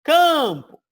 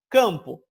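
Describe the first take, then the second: First: CAMPO much higher and louder, CAM drawn out; exaggerated stress on CAM. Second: CAMPO said loud, falling, at usual pitch; stressed nasal CAM. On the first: Teacher proves the nasal is tonic, exaggerated CAM-po. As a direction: belt out the first syllable of campo, then fall. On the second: Teacher tests the word, firm stressed CAMPO. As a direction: say Campo firmly, weight on the first syllable. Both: Shown as a demonstration. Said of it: "campo tá ok".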